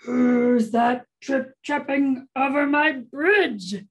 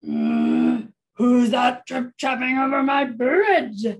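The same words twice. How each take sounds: First: Slow, forceful troll growl; big slow storybook troll. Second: Loud, growly storybook troll; roaring troll. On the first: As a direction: growl it slowly like a menacing troll. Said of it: "make your troll voice". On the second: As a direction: roar it like an angry troll. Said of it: "roared the troll". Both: Acted.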